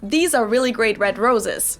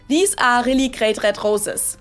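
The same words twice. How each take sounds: First: The R sounds are pronounced the English way. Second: The R sounds are pronounced the German way.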